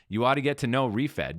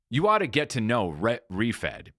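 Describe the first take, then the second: First: It is said in a natural conversational voice. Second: It is read in a put-on announcer voice. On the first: It sounds like talking to a friend. The speaker calls it right. "Now you sound like a person" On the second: It sounds like a performance, not a conversation. The speaker calls it wrong. "if you put on a voice"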